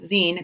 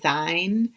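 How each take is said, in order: First: The vowel sounds like the end of 'magazine'. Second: The vowel sounds like the one in 'fine'. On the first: The speaker calls it right. "Zine, magazine, zine" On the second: The speaker calls it wrong. "I always say it wrong"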